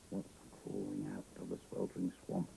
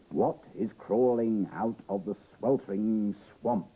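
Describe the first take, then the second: First: Low, soft wondering question; hushed repeat. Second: Slow, emphatic storytelling question; dramatic story reading. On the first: Reader searches the swamp page with the child, hushed and low. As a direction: drop right down and ponder it quietly. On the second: Reader puts the book's riddle to young listeners, dramatic and slow. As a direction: draw it out slowly for suspense. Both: A narrator's reading.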